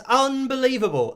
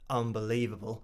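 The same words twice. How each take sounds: First: It is higher and lively, sounding amazed. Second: It is low and creaky, sounding let down. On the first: The speaker has just seen something wonderful. "pretend to see something that was an amazing thing" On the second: The speaker is let down by something. "simulating being a bit disappointed, a bit down. I might even go as low as vocal fry"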